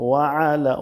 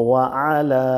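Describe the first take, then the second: No difference in how they are said.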